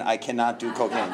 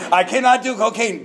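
First: Said in the usual way. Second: Higher, louder, pleading insistence; emphatic refusal. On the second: Shown as a demonstration. Refusing the hairstylist's bag, higher and louder insistence. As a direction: plead it out, pitched up and loud like a man refusing the bag. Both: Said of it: "I said it just like that".

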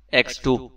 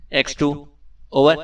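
First: Clipped, commanding "ایکس ٹو"; sharp tone. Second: "ایکس ٹو" in a distinct official code voice, "over" rising; his special X2 tone. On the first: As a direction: state the code name crisply, a touch of authority. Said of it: "Imran نے تیز لہجے میں کہا". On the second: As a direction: sign on as the secret chief, formal and measured. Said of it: "Imran نے مخصوص لہجے میں کہا". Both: A narrator's reading.

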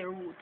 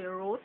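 First: "root" with a Jamaican oo vowel; Jamaican pronunciation. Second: "root" as some foreigners say it; non-Jamaican pronunciation. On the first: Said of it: "in Jamaica". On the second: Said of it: "some of you guys would say". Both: Shown as a demonstration.

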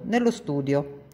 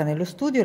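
First: Nello studio muttered dry, short, no warmth; dry grumble. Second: Said in the usual way. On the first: Acted. Maid Tina calling Heidi to the study, dryly grumbling. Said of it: "col solito tono asciutto".

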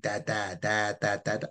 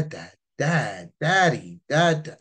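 First: Put-on monotone baby babble, syllable after syllable; string of even, unemphatic baby syllables; babbling young child. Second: Put-on higher, more emphatic child's calls; maturing child. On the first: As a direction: lightly imitate a baby's first babbling. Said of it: "when kids start learning language". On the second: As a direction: imitate an older child calling for father. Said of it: "as they mature, they start going".

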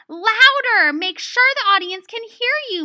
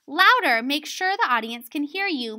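First: High, forceful teacher's call; loud stage direction. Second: Milder raised-voice direction; directing. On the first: Acted. Miss Bunyan directing students to be heard, loud and forceful. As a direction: project hard, as if to the back row. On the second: Shown as a demonstration. Example of Miss Bunyan directing the students, mildly raised voice. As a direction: open firmly on the first word, then ease off. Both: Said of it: "Miss Bunyan directed".

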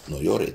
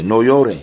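First: Gentle comfort. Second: Louder, higher "No llore", stressed on "llore"; firm command. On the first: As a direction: say "No llore" quietly, comforting the mother. ("No llore" suave y consolador) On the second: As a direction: say "No llore" as a firm, raised order. ("No llore" en voz alta y firme) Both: Retold or imitated.

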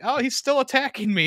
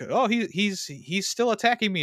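First: Much higher, louder mock cry for help; hammed-up panic, voice pitched way up; heightened mock alarm. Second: High-pitched retold cry of alarm; mock alarm. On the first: Friend escalating the retold joke about another pot, heightened mock alarm. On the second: Friend retelling the funny fake fight scene, mock alarm. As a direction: act out a panicked victim, pitched up. Acting out staged attacker's victim.

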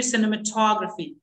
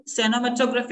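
First: "cinematography" as si-nuh-muh-TOG-ruh-fee; light "sinema", then stress TOG in "cinematography"; correct pronunciation. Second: "cinematography" with a full SE-no opening, se-no-ma-TOG-raphy; common mispronunciation. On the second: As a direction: open "cinematography" as "seno-ma", full o. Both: Shown as a demonstration. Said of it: "it should be cinematography".

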